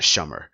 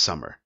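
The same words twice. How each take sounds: First: Shummer with SH at the start; wrong SH sound. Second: Said in the usual way. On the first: Shown as a demonstration. Showing how English spelling confuses, wrong SH pronunciation. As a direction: say summer as "shummer". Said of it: "not shummer". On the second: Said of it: "it's pronounced summer".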